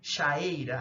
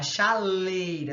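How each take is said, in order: First: The vowels meet directly with no l sound. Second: An l sound links the two vowels. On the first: The speaker calls it wrong. "Não fica estranho?" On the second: The speaker calls it right. "A gente acrescenta uma consoante para ficar melhor"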